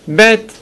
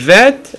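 First: The first consonant is a hard stop. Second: The first consonant is a soft fricative. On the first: The speaker calls it right. "תגיד את זה בצורה הדגושה" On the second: The speaker calls it wrong. "אל תגיד את זה בצורה הרפה"

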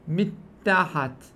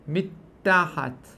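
No difference in how they are said.

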